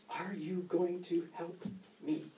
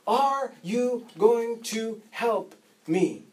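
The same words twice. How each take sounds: First: Quiet plea. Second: Higher, slow, each word leaned on; slow insistent plea. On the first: Father answers the firemen. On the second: Father pleading slowly with the police. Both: Retold or imitated.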